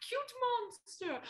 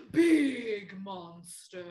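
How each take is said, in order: First: Much higher, slow sweet cute voice; hammed-up adorable monster. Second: Slow, loud, growly big monster voice; hammed-up giant monster. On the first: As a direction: coo it like a tiny monster. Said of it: "show me cute monster". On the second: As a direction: stretch it out huge and loud. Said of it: "Normal monster". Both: Shown as a demonstration.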